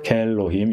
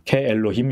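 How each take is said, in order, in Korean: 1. 두 모음이 합쳐져서 한 음절이 돼요: kelohim. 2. 두 모음은 따로 발음해요: ke-elohim. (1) "이렇게 읽게 되는 거죠" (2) "이렇게 읽지 않고"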